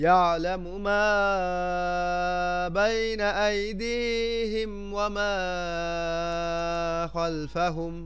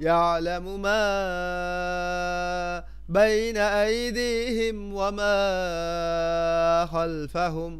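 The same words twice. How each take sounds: The two takes are said the same way.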